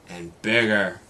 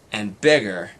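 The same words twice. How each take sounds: The two takes are said the same way.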